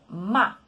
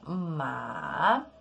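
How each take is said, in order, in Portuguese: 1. O tom cai bruscamente a partir do alto. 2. O tom desce e depois sobe. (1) "um tom forte descendente... sobe lá do alto e desce de uma forma rápida" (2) "É um som que desce e sobe... seria ma, significando cavalo"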